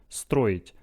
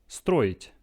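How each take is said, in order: No difference in how they are said.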